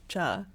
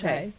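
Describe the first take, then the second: First: The word ends on a plain 'ah' vowel. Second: The word ends with an 'ee' glide. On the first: This is the regional Gujarati way of saying it. "the Gujarati way of saying chai is cha" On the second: This is the common Hindi way of saying it. "like in Hindi"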